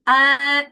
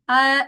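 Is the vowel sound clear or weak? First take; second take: clear; weak. First: The vowel is said clearly, without escaping air. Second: The vowel is said weakly, without clear force. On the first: The speaker calls it right. "dibaca dengan jelas" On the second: The speaker calls it wrong. "Atau lemah bacanya"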